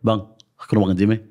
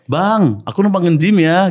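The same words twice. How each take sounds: First: The vowel in 'bang' is short. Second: The vowel in 'bang' is drawn out. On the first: The request sounds curt, as if they do not get along. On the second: The request sounds friendly and warm.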